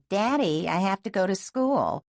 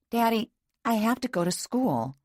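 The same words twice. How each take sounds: First: It is said in a whining, mocking voice. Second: It is said in her plain voice.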